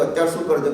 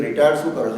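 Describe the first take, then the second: First: Said in the usual way. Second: retired stressed as the new focus word. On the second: Retold or imitated. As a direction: lean on retired, puzzled. (Retired શબ્દ પર ભાર)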